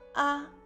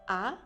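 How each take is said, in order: First: The pitch stays high and level throughout. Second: The pitch rises from middle to high. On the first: "A en premier ton, on ouvre la bouche assez grande que possible" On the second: "A au deuxième ton, on montre le son. Il semble dire je suis étonné"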